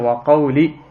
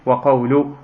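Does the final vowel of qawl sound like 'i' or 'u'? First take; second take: i; u. First: The word qawl ends with an 'i' vowel. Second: The word qawl ends with a 'u' vowel. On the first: "on peut dire wa qawli" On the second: "tout comme on peut dire wa qawlu, et ce n'est pas une faute"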